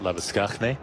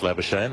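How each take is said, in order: First: The name is pronounced in Afrikaans style. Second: The name is pronounced in an anglicized way.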